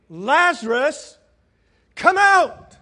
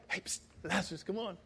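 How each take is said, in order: First: Loud, high, drawn-out summons; commanding shout to someone far off; calling by name. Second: Hushed, furtive beckoning; soft little psst aside; secretive low call. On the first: Acted. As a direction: call him out with full force. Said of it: "Jesus called him by name". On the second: Shown as a demonstration. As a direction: call softly as if sneaking someone out. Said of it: "It wasn't like".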